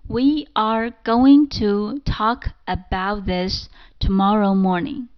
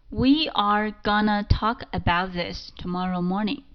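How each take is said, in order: First: "Going to" is said in full. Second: "Going to" is reduced to "gonna".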